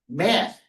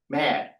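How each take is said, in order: First: The word ends with a th sound. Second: The word ends with a d sound. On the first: The speaker calls it right. "put his tongue through his teeth and say math" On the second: The speaker calls it wrong. "my son had a problem of using the T H sound as a D. So he would say mad"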